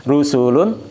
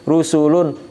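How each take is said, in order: No difference in how they are said.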